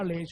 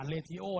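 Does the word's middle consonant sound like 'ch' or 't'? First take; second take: ch; t. First: The middle sounds like 'ch', two syllables. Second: The middle sounds like 't', three syllables. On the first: The speaker calls it right. "อ่านว่าเรโชนะ" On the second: The speaker calls it wrong. "อย่าเรทิโอนะน่าเกลียด"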